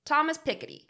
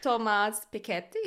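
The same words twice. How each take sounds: First: THOMAS PIKETTY said the plain American way, higher; Ohioan pronunciation. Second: "Thomas Piketty" as toh-MAHS pee-KET-tee; botched French "Thomas Piketty" that comes out Italian, stressed on KET; Italian-sounding pronunciation. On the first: Host guessing at a French economist's name as an Ohioan, American pronunciation of "Thomas Piketty". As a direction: say "Thomas Piketty" with an English TH-name and light middle syllable. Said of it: "an Ohioan".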